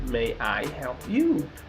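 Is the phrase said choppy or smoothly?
choppy. The words come out separately in a choppy rhythm. The speaker calls it wrong. "but not"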